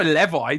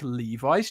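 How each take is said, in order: First: "Levi" as LEV-eye, short e; wrong pronunciation. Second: "Levi's" as LEE-vize; long-e pronunciation. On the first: British co-host challenges the American rule, mock short-e pronunciation. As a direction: say "Levi" with the e of never, pointedly. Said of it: "You don't say Levi, do you?". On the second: British co-host offers jeans as proof of his rule, long-e pronunciation. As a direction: give "Levi's" a long first e, slowly. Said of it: "You know, like Levi's jeans". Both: Shown as a demonstration.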